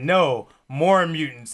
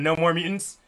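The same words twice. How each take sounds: First: There is a pause after no. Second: It is said without a pause after no.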